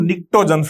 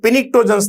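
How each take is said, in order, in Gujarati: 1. આ શબ્દ P અવાજ વગર શરૂ થાય છે. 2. આ શબ્દ P અવાજથી શરૂ થાય છે. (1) "પી સાયલેન્ટ છે એટલે આપણે કહીશું નિક્ટોજન" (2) "પિનિક્ટોજન્સ નહીં બોલીએ"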